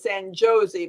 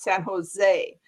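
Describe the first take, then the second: First: The J is sounded like an English J. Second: The J is sounded like an H. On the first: The speaker calls it wrong. "kind of like if you're going to San Jose" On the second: The speaker calls it right. "but it's San Jose"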